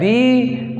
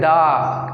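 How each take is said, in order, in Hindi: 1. शब्द 'ee' स्वर पर खत्म होता है। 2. शब्द 'ah' स्वर पर खत्म होता है। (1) "कोई बोलता है दी" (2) "दा नहीं होता उच्चारण इसका।"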